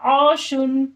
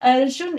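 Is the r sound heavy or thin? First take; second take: heavy; thin. First: The r sound is heavy and full. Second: The r sound is thin and light. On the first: The speaker calls it right. "पुर पढ़ेंगे किस तरीके से?" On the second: The speaker calls it wrong. "इस तरीके से सिंपल यानी बारीक नहीं पढ़ेंगे"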